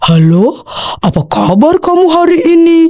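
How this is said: It is said in a big, deep voice. "itu suara besar ya"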